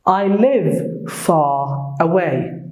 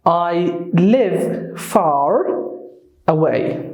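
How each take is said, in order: First: Slow British demo, FAR said as "fah" with no R; teacher's drawn-out British FAR, R silent. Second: Slow demo, FAR ending in a heavy American R; drawn-out American FAR with the R fully sounded; American strong R. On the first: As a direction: drop the R in FAR, leaving a long open vowel. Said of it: "in the British accent". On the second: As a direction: curl a strong R onto the end of FAR. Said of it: "the American English wuxuu noqonayaa". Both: Shown as a demonstration.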